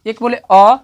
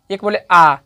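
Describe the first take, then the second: First: "अ" as a short vowel. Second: "आ" held longer than a short "अ"; long vowel. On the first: Teacher showing learners vowel timing, short "अ". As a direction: say "अ" briefly, as one beat. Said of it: "इसमें आपको कम समय लग रहा है". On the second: Teacher showing learners vowel timing, long "आ". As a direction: stretch "आ" to double length. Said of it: "आ बोले इससे ज़्यादा लगा". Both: Shown as a demonstration.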